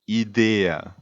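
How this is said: It is pronounced the Italian way. The speaker calls it right. "idea as a way of pronouncing this word correctly"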